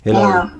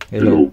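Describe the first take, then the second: First: The voice is shifted very high. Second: The voice is shifted big and deep. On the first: "Para tayong ano, chipmunks" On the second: "Malaki naman yung boses dito"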